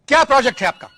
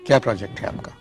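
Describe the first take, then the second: First: It is asked loudly in a scolding tone. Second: It is asked softly in a lowered tone.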